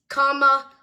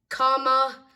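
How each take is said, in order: No difference in how they are said.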